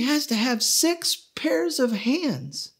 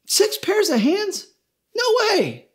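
First: Slow whisper, much higher; God whispering the impossible last requirement. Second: Much higher, slow disbelieving question; can't believe what she's hearing; incredulous angel. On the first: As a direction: breathe it out slowly like a secret. God adds the hardest requirement. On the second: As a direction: angel balking at six pairs of hands. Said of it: "The angel shook her head and she said". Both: Acted.

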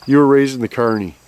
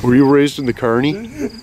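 First: Falling tune ending on CARNY; insistent statement. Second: Rising tune up to CARNY; questioning. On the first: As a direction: state it firmly, dropping on "carny". Insists after being told no. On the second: Question, then insisted as statement. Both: Real, not acted.

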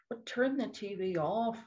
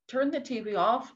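First: Said in the usual way. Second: "Turn the T V off" said higher and firmer, stress on Turn; urging viewers, the repeat pushed up in pitch; emphatic repeat. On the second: Real, not acted. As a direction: hammer home "Turn the T V off" as a command.

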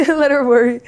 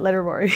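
First: Much higher and louder, laughing through it; laughing repeat of the line. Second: Said in the usual way. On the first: Real, not acted. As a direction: crack up while repeating it. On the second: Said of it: "I'm like".

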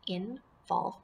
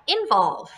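First: "Involve" softly in two pieces, IN, pause, VOLVE; syllables apart. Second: Said in the usual way. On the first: Shown as a demonstration. Teacher shows pupils the pieces, "Involve" split in two. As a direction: say "Involve" with a clear gap after IN. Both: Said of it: "put them together".

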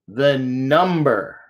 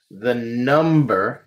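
First: The number drawn out slowly, falling at the end; slow emphasis. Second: The number drawn out slowly, rising at the end; slow emphasis. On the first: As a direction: land the number slowly and firmly. Teacher repeats key term. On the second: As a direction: stretch out the number slowly as a question. Teacher stresses key term. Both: Shown as a demonstration.

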